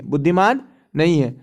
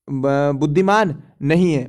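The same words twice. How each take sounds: First: Said in the usual way. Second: बुद्धिमान नहीं है drawn out slowly, lower, word by word; slow emphatic. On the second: Shown as a demonstration. Teacher stressing to a student that it isn't intelligent, slow and emphatic. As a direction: stretch बुद्धिमान out slowly to make the point sink in.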